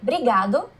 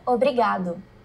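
First: The first syllable is dropped from the word. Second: The first syllable is kept in the word. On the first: This is the casual everyday form. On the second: This is the full standard form.

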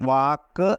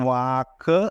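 No difference in how they are said.

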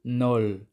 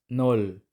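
The two takes are said the same way.

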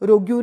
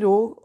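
First: A 'yoo' sound is said at the end. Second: It ends plainly, with no 'yoo' sound. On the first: The speaker calls it wrong. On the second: The speaker calls it right.

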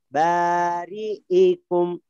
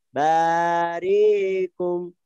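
First: The glottal stop is made clearly and distinctly. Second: The glottal stop is softened and barely heard. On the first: The speaker calls it right. "Lebih jelas ini" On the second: The speaker calls it wrong. "Kayak tasil. Tidak jelas"

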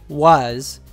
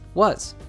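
First: The word is said in its full, strong form. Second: The word is said in a reduced, weak form. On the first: The speaker calls it wrong. "It's not was" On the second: The speaker calls it right. "All the other syllables are pronounced more weakly"

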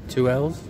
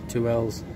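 No difference in how they are said.

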